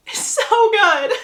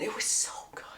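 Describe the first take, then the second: First: High, louder gushing with a laugh; laughing squeal. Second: Hushed, whispered aside of delight; whispered gushing. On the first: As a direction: draw it out, giddy and laughing. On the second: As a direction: gush about it under your breath. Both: Real, not acted. Gushing over a favourite scene.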